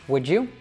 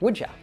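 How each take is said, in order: First: The final vowel is a full 'you'. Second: The final vowel is reduced to a schwa. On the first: "we can say would you" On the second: "we can also reduce the you and say would ya"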